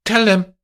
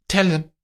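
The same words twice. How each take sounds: First: High and louder, final; high, forceful order; loud command. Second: High, firm command; high, clipped firmness; stern order. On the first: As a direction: slam the order down. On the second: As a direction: lay down the order. Amandine ordering. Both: Acted.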